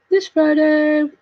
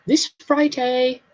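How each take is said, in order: First: Drawn out, higher singsong; playful long-held repeat; playful echo. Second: Said in the usual way. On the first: Pretend. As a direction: stretch it out in a high announcing lilt.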